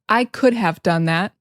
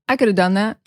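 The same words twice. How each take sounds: First: Each word is said fully and separately. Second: The words are reduced to 'coulda'. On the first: "instead of" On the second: "we say"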